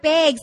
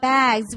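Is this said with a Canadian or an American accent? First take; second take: Canadian; American. First: The vowel is said in a Canadian way. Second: The vowel is said in an American way. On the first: "we have bags" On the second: "not bags"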